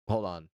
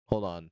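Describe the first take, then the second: No difference in how they are said.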